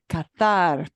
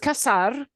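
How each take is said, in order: First: It is said with a pronunciation from Spain. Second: It is said with a Latin American pronunciation. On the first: "but in Spain it's pronounced cazar" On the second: "in Latin America and in Spain, those two words have different pronunciations. Cazar, C A Z A R, is cazar"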